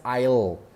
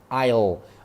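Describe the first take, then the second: First: The words are contracted into one syllable. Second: The words are contracted into one syllable.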